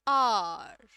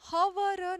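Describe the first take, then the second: First: The word begins directly with a vowel sound. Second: The word begins with an audible h sound. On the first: The speaker calls it right. "ये आर में भी र silent है" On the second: The speaker calls it wrong. "हवर नहीं होता है कभी भी"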